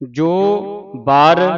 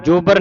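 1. ਦੋਵੇਂ ਸ਼ਬਦ ਵੱਖ-ਵੱਖ ਬੋਲੇ ਜਾਂਦੇ ਹਨ। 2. ਦੋਵੇਂ ਸ਼ਬਦ ਇਕੱਠੇ ਬੋਲੇ ਜਾਂਦੇ ਹਨ। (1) "ਵੱਖ-ਵੱਖ ਹੀ ਬੋਲਣੇ ਨੇ" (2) "ਜੋਬਰ ਨਹੀਂ ਕਹਿਣਾ, ਇਕੱਠੇ ਨਹੀਂ ਬੋਲਣੇ"

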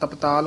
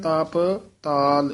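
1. ਦੋਵੇਂ ਸ਼ਬਦ ਇਕੱਠੇ ਬੋਲੇ ਜਾਂਦੇ ਹਨ। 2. ਦੋਵੇਂ ਸ਼ਬਦ ਵੱਖ-ਵੱਖ ਬੋਲੇ ਜਾਂਦੇ ਹਨ। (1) "ਇਕੱਠਾ ਨਹੀਂ ਕਹਿ ਦੇਣਾ" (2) "ਇਹ ਵੱਖਰਾ ਹੀ ਪਾਠ ਕਰਨਾ ਹੈ"

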